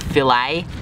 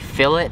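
First: It is said the non-Australian way. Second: It is said the Australian way. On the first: This is the pronunciation used elsewhere. The speaker calls it wrong. "not fillet" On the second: This is the pronunciation taught locally. The speaker calls it right. "Here in Australia, we're taught to say fillet"

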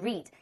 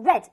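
First: It is said with a long vowel, like 'reed'. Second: It is said with a short vowel, like 'red'. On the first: The speaker calls it wrong. "而不是read" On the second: The speaker calls it right. "需要读成read"

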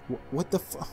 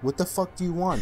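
First: It is said as a frightened, broken whimper. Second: It is said in an angry, commanding tone.

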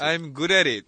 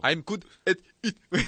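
First: The words are rolled together into one smooth unit. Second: Each word is pronounced separately and distinctly. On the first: The speaker calls it right. "굴려서" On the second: The speaker calls it wrong. "이렇게 너무 힘드니까"

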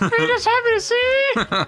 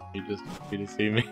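First: It is said loudly. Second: It is said quietly.

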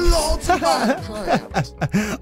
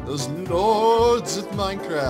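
First: It is said in an imitated character voice. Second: It is said in his normal voice.

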